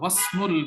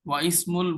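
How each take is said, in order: First: The 'i' vowel is dropped, joining 'wa' to 'smul'. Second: An 'i' vowel is pronounced separately after 'wa'. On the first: The speaker calls it right. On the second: The speaker calls it wrong.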